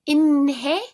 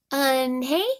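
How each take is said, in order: First: Inhae? said with a plain ee-n start, rising, unsure; wrong try. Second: Eunhae? said with the proper eun start, still rising; a careful, nearly right Eunhae? with a question lift; closer try. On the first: Kids try the new name Inhae?, unsure and rising. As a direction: kids guess Inhae? hesitantly with a rising question. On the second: Kids finally get closer to Eunhae?, careful and rising. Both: A narrator's reading.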